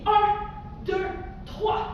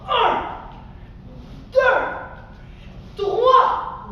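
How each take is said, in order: First: Said in the usual way. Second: High, forceful spaced-out count; shouted count. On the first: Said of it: "Tu dis un". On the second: Shown as a demonstration. Teacher counting three stomps on the cloud, shouted. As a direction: call each number out with a stomp. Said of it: "Tu dis un, deux, trois".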